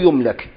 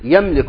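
First: The verb is voiced with 'u' after ya. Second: The verb is voiced with 'a' after ya. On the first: The thing can be owned. The speaker calls it wrong. "مو يملك" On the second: The subject owns the thing. The speaker calls it right. "معلوم مو مجهول، يملك"

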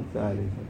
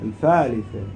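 First: The th sounds are pronounced as th. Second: The th sounds are pronounced as f. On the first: This is the standard form. "مو الثالثة" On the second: This is the local dialect form. "القاعدة الفالفة بلهجتنا"

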